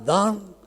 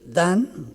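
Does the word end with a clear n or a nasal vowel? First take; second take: nasal vowel; clear n. First: The word ends in a nasalized vowel, no n. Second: The word ends with a clear n sound. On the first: "en Andalucía puede convertirse en da con una nasalización" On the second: "ese dan"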